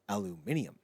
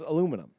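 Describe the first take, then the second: First: It is said with a British pronunciation. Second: It is said with an American pronunciation. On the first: "How do the British pronounce aluminum?" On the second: "how do we pronounce aluminum?"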